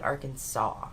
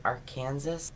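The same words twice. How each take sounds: First: Arkansas said as "AR-kan-saw"; standard pronunciation. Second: Arkansas said like "Kansas" with "Ar" in front; said as spelled. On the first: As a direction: end Arkansas on "saw", silent final S. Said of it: "Why is it Arkansas". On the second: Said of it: "It is spelled Arkansas". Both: Shown as a demonstration.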